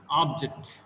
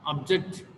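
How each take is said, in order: First: "object" with the first syllable stressed, falling after it. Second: "Object" with the second syllable stressed, ending in a rise. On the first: Teacher shows word stress, "object" stressed on first syllable. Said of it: "Object means, uh, aim or goal". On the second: Teacher shows word stress, "Object" stressed on second syllable. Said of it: "Object means to restrict". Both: Shown as a demonstration.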